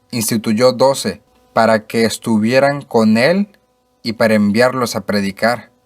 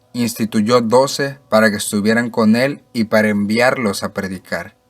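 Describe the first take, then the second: No difference in how they are said.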